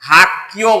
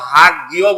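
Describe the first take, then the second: First: The second syllable starts with a tensed, hard consonant. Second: The second syllable starts with a plain, soft consonant. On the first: The speaker calls it right. "হাক কিও বলবো" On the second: The speaker calls it wrong. "হাক গিয় বলবো না"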